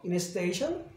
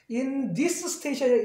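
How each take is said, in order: First: The th sound is dropped, giving 'in a'. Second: The th sound of 'this' is pronounced. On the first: "빨리 하면" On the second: "어차피 여기서는 그냥 할게요"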